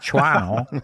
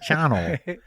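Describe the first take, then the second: First: A W sound is pronounced in the name. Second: The W sound is left silent in the name. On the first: The speaker calls it wrong. "Not Shawano" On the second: The speaker calls it right. "Leave out silent W"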